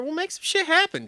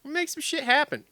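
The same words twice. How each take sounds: First: High-pitched eager pitch; hammed-up eager. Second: High, eager repeat; hammed-up eager. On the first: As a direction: oversell it like a hungry rider. Mock eager pitch to sponsor. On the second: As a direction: sell the promise once more.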